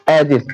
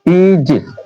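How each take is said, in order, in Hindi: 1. पहला स्वर छोटी 'eh' ध्वनि है। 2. पहला स्वर लंबी 'ee' ध्वनि है। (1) "कुछ गांव में प्रोनाउंसिएशन में इसे बोलते एजिस" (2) "ए ई का उच्चारण क्या होगा? ई।"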